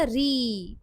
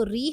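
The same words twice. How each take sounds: First: री with a long, held ई; long vowel. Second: Said in the usual way. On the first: Shown as a demonstration. Teacher showing the pronunciation difference, री drawn out long. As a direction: stretch री out slowly. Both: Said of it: "ये difference हो जाएगा pronunciation का".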